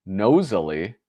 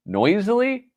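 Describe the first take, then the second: First: "Nosily" said as NOH-zuh-lee, with a long o; "Nosily" pronounced NOH-zuh-lee with a rising, questioning tune; reading it as nosily. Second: "Noisily" said as NOY-zlee, with an oi sound; "Noisily" pronounced NOY-zlee on a much higher, puzzled pitch; reading it as noisily. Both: Shown as a demonstration. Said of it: "Noisily or nosily?".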